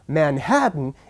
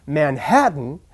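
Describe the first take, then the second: Both takes have the same delivery.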